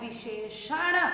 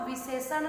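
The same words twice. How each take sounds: First: The middle consonant is an 'sh' sound. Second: The middle consonant is a plain 's' sound. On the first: The speaker calls it right. "आपको बोलना है विशेषण, तब वह शुद्ध उच्चारण होगा" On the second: The speaker calls it wrong. "विशेषण नहीं बोलना है ... ये शुद्ध उच्चारण नहीं है"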